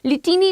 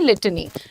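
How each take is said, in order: First: The middle vowel is a full 'i' sound. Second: The middle vowel is reduced, almost dropped. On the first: The speaker calls it wrong. "लिटिनी नहीं" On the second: The speaker calls it right.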